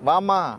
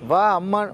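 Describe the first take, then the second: First: The two words are merged into one shortened word. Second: The two words are said fully and separately.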